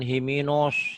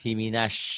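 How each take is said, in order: First: The vowel is said with rounded, pushed-out lips. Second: The vowel is said with lips spread wide open. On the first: The speaker calls it wrong. "jangan himinos ... dimonyongin" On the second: The speaker calls it right. "Bibirnya dibuka lebar"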